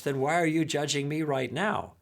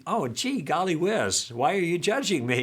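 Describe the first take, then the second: First: Said in the usual way. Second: A mildly higher, guileless "gee, golly whiz"; innocent, not angry. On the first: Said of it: "I wasn't belligerent when I said it". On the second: Retold or imitated. Asking Gil back, mock-innocent and not belligerent. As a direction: play it light and harmless, no edge. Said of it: "I wasn't angry. I was just saying".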